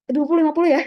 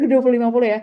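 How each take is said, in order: First: Sudden high, loud exclamation; startled exclaim. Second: Laughing through the words, loud; laughing repeat. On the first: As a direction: blurt it out in surprise. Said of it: "sudden exclaim". (seruan kaget, lebih tinggi dan keras) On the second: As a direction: repeat it while laughing at yourself. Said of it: "repeats laughing". (mengulang sambil tertawa) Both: Real, not acted.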